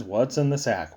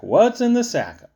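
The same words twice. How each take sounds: First: Said in the usual way. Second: Higher, louder pestering repeat of What's in the sack; mocking high nagging. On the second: Narrator mimics people pestering him about the sack, high and nagging. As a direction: nag it up high like an annoying asker.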